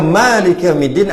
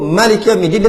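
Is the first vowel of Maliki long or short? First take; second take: long; short. First: The first vowel of Maliki is long. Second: The first vowel of Maliki is short. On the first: The word is read with four letters, including alif. "ada alif kat situ" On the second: The word is read with three letters, without alif. "yang kata tiga huruf tu"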